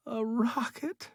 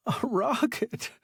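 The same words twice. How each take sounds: First: High, choked cry of disbelief. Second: Stunned disbelief. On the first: Stranded man seeing his rescue, crying out in disbelief. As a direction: cry it out as if you can't believe your eyes. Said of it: "he cried". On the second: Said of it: "he said". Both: A narrator's reading.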